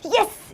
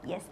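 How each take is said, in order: First: It sounds very energetic and excited. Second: It sounds calmly happy, with a smile.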